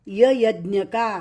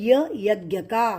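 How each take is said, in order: The two takes are said the same way.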